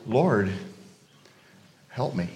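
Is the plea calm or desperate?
calm. It is said calmly, without urgency.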